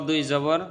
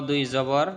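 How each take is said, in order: The two takes are said the same way.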